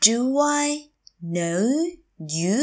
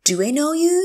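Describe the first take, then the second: First: Do, I, know, you, each separate; slow teacher model of "Do I know you"; word by word. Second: Said in the usual way. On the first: Shown as a demonstration. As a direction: say "Do I know you" with a pause after every word. Teacher repeats phrase word by word.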